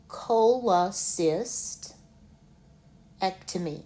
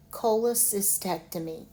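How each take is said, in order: First: "Cholecystectomy" stretched out slowly, every syllable separate. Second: Said in the usual way. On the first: Shown as a demonstration. Teacher showing learners how to say the word, slowly in syllables. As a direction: drag "Cholecystectomy" out one syllable at a time. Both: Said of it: "let's say it in the syllables slowly".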